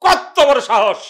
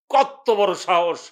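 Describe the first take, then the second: First: Loud, raised, indignant outburst; outraged shout. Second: Drawn-out, indignant exclamation; slow indignation. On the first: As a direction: burst out at their nerve, much louder. Brother's indignation, louder repeat. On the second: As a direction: stretch the words out slowly in outrage. Brother's indignation, first take. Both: Acted.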